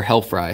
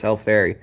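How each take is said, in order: First: "hellfry" ending like the word fry; "hellfry" with a long-i ending; alternative pronunciation. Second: "helleferi" ending in FAIR-ee; "helleferi" with an ee sound at the end; variant pronunciation. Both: Shown as a demonstration. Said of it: "however you'd like to pronounce that".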